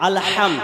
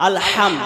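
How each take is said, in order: No difference in how they are said.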